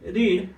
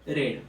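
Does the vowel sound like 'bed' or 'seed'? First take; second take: seed; bed. First: The vowel is long, as in 'seed'. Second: The vowel is short, as in 'bed'. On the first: It is the first form of the verb. "याला काय म्हणतो आपण रीड" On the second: It is the second or third form of the verb. "या दोघांसाठी आपण वापरतो तो रेड"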